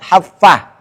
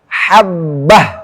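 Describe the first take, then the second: First: The middle consonant sounds like f. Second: The middle consonant is a clear b. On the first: The speaker calls it wrong. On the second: The speaker calls it right.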